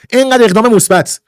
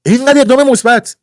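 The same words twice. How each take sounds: First: اینقدر اقدام مثبت stressed firmly on اینقدر; first, firmer take of اینقدر اقدام مثبت; emphatic. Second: اینقدر اقدام مثبت said higher, with اینقدر hit hard; escalating repeat of اینقدر اقدام مثبت; stronger emphasis. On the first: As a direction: lean on اینقدر and let it fall. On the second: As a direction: punch اینقدر harder on the repeat. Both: Shown as a demonstration. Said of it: "repeated with more force".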